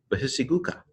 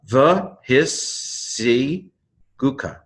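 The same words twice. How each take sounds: First: Said in the usual way. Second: Slow, higher "the his si gu ka" in held pieces; syllable by syllable. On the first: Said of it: "Doesn't sound like Hebrew". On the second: Shown as a demonstration. Teacher retrying a tricky Hebrew word, syllable by syllable. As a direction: stretch out each syllable. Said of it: "ends the first syllable".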